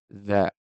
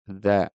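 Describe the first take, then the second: No difference in how they are said.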